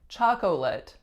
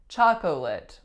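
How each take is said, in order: Both takes have the same delivery.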